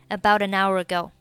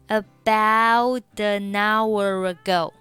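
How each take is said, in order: First: The phrase is said at a faster pace. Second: The phrase is said at a slower pace.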